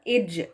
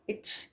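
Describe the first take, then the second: First: It ends in a voiced, bounced j sound. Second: It ends in a breathy ch sound. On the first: The speaker calls it right. "कलकला के साथ या बाउंस करके अदा किया जाता है" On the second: The speaker calls it wrong. "इस तरह की सी एच वाली आवाज ना, इच, इस तरह की हवा के साथ, तो ये गलत है"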